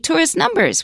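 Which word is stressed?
numbers. The stress falls on the second word. The speaker calls it wrong. "we don't say"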